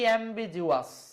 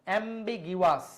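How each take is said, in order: First: The middle consonant is a j sound. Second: The middle consonant is a hard g sound. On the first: The speaker calls it wrong. "এটা কিন্তু জিওয়াস না" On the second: The speaker calls it right. "এটা গয়ের উচ্চারণ হচ্ছে।"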